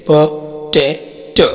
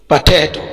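First: "potato" slowly as पो, टै, टो; split into syllables. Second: Said in the usual way. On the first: Shown as a demonstration. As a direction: pause between the three syllables of "potato". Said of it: "तीन syllable है जैसे". ("Potato" کو تین حصوں میں ٹھہر ٹھہر کر) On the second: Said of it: "तीन सिलेबल है".

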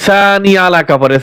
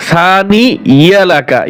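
First: Said in the usual way. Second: সানি ইয়ালাকা with clear ya sound; correct ya. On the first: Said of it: "অনেকে ভুল পড়ে". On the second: Shown as a demonstration. Teacher correcting a mistake to the right form. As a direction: say সানি ইয়ালাকা, not আলাকা. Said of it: "ইয়া জবর".

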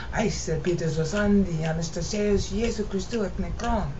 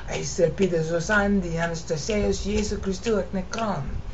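Both takes have the same delivery.

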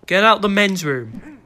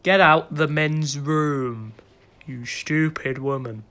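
First: Louder, higher, slow command; insistent order. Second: Drawn-out mock command; slow, stern order. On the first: Pretend. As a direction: raise the voice to send someone out. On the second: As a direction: spell out the order very slowly. Slow order to woman intruder.

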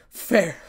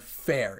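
First: FAIR thrown back high and loud; incredulous, angry FAIR, much louder; spat out in anger. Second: Said in the usual way. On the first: A narrator's reading. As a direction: spit FAIR out as an angry question. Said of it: "in anger". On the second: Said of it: "spitting out a word".

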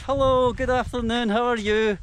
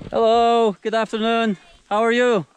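First: High, lightly voiced villager calling hello; mock villager greeting. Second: High, loud friendly call to passers-by; calling out a greeting. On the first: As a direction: echo the villagers' greeting in a higher voice. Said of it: "They're like". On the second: Real, not acted. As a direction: shout a cheerful hello across to them. Greeting villagers passing by.

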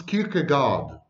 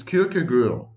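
First: Anglicized Kierkegaard, final D sounded; English pronunciation. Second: Danish-style Kierkegaard with a rounded last vowel; Danish pronunciation. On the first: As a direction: say Kierkegaard as KEER-kuh-gard. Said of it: "but in English, it's Kierkegaard". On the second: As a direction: say Kierkegaard as KEER-keh-gurr. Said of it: "in Danish, it's Kierkegaard". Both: Shown as a demonstration.

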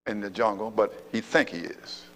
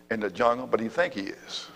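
Both takes have the same delivery.

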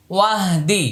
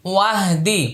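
No difference in how they are said.

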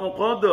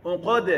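First: Unqad ending in a heavy, rounded "do"; thick dal. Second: Unqad with heavy qa and light open "da"; thin dal. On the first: Teacher shows the mistake, unqad with thick dal. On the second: Teacher corrects it, Unqad with thin dal. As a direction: keep the last sound of Unqad thin. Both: Shown as a demonstration. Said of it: "dal tipis".

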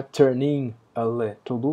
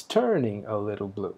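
First: "turning a little blue" with the weight on "blue" and a rise on it; wrong stress. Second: "turning a little blue" with a strong beat on "turning" and a falling line; right stress. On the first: Teacher showing the class the wrong accent, stress on blue. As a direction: lean on "blue", not on "turning". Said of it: "Não é". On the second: Teacher showing the class the correct accent, stress on turning. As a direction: hit "turning" first and let "a little blue" fall away. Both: Shown as a demonstration.

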